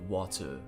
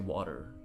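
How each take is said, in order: First: The middle consonant is a crisp T. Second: The middle consonant is a soft D. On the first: This is how an English person says it. "as like an English person might would" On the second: This is how Canadians usually say it. "we'll say water"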